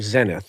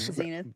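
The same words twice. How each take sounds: First: It is said with a British accent. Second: It is said with an American accent.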